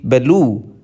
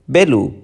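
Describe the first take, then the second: First: "belu" with the second syllable stressed and drawn out; light start, lean on the end of "belu". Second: "belu" with the first syllable stressed, falling away on the second. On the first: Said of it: "which has stress on the second syllable". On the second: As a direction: hit the start of "belu", let the end drop. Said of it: "it has stress on the first syllable". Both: Shown as a demonstration.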